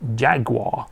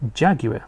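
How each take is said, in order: First: Jaguar is pronounced in an American way. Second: Jaguar is pronounced in a British way.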